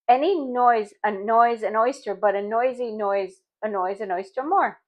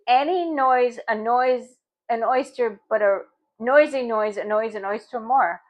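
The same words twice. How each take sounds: First: The phrase is said at a faster pace. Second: The phrase is said at a slower pace.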